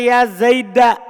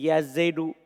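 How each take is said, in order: First: The name ends with an a vowel. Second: The name ends with a u vowel. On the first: "Yang kedua dibaca fathah" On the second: "Ini kalau antum baca dhammah"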